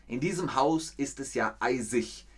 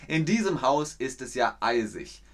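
No difference in how they are said.

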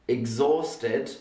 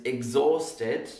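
The two takes are said the same way.

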